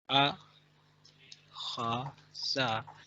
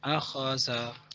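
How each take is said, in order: First: Each syllable is said separately with pauses. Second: The syllables are joined without any pauses.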